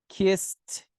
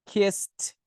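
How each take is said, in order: The two takes are said the same way.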